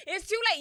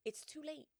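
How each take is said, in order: First: High, loud exclamation after a laugh; loud emphatic repeat. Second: Said in the usual way. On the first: Real, not acted. Storyteller insists reasoning with Cyclops is over, loudly emphatic. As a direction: hammer the verdict home loudly.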